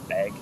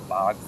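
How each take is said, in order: First: The vowel sounds front, like 'a' in cat. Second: The vowel sounds open, like 'ah' in bog.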